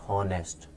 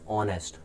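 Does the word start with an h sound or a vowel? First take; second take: h sound; vowel. First: The word starts with an audible h sound. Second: The word starts with a vowel sound, no h. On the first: The speaker calls it wrong. "not honest" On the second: The speaker calls it right. "We always pronounce this word honest"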